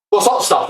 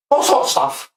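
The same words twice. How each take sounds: First: Said in the usual way. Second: A whispered "What's hot stuff?" pitched higher; whispered question. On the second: Shown as a demonstration.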